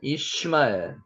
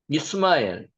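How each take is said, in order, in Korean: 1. 두 번째 음절은 'shi'로 발음합니다. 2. 두 번째 음절은 'seu'로 발음합니다.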